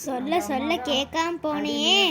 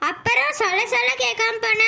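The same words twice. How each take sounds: First: Slow, low, drawn-out lament; sorrowful reproach. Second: Higher-pitched annoyed reproach; cross scolding. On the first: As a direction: reproach her sorrowfully, taking your time. Mother laments over daughter's ignored advice. (மெதுவாக வருத்தத்தோடு குறைபடுவது) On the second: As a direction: scold her for not listening. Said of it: "கோவப்படாத". (கோபமாகக் கடிந்துகொள்வது) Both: Acted.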